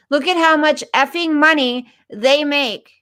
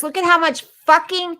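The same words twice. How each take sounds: First: Said in the usual way. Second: "fucking" blurted out high and heated; angry swearing. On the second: Real, not acted. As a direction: let the curse slip out in anger. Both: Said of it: "excuse my language".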